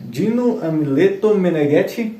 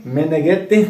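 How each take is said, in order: First: Said in the usual way. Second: Meneghetti with a light Italian accent, rising at the end. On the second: Shown as a demonstration. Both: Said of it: "tem que falar com o sotaque italiano".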